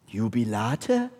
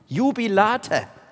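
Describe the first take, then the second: First: It is said as a doubtful question. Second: It is said as an excited exclamation. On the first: It expresses doubt. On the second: It expresses joyful certainty.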